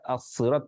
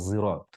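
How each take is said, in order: First: The first consonant is a heavy, emphatic s. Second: The first consonant is a heavy z-like sound. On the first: "baca as-sirat pakai sod" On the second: "kabilah yang lain membaca zirat"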